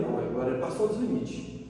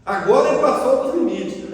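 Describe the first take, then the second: First: Low, subdued realization; retold reaction. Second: Louder, firm declaration; emphatic indignation. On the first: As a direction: say it quietly, as if to yourself. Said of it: "eu olhei e falei". (reação contida, em voz baixa) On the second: Retold or imitated. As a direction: raise the voice as the limit is crossed. Repeats his reaction, now emphatically. (indignação enfática, em voz alta)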